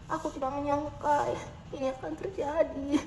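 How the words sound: It is said in a sad tone.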